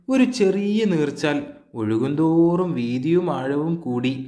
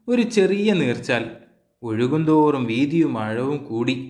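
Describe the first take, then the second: Both takes have the same delivery.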